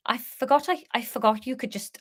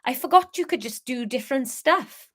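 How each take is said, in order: First: Hesitant, faltering stab at Welsh; failed Welsh accent. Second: Lightly attempted Welsh lilt; Welsh accent. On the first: Acted. The speaker talking to Leah, unsure Welsh accent. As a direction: start in Welsh and lose it. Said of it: "now I can't remember how to do Welsh". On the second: The speaker marvelling at Leah, tentative Welsh accent. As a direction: have another careful go at Welsh. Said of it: "how to do Welsh".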